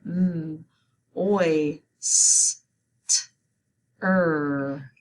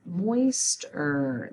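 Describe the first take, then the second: First: "M, oi, s, t, er" sound by sound, paused between. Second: Said in the usual way. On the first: Shown as a demonstration. Teacher guiding spelling of moister, sounding out "M, oi, s, t, er" slowly apart. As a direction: separate every sound in "M, oi, s, t, er". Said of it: "Let's spell it". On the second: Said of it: "Let's say it".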